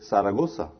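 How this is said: The z is sounded like s. "they say it just like you say the S sound"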